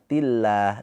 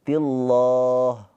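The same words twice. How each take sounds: First: The L sound is light and thin. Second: The L sound is heavy and thick. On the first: The speaker calls it right. "dibacanya dengan tarkik tipis ... pakai a" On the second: The speaker calls it wrong. "bukan tillah"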